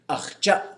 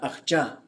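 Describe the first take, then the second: First: The final vowel is cut off by a glottal stop. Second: The final vowel flows on without a glottal stop. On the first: The speaker calls it right. "J A high tone A apostrophe" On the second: The speaker calls it wrong. "not achja"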